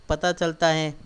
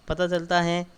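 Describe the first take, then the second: No difference in how they are said.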